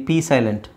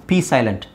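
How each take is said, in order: No difference in how they are said.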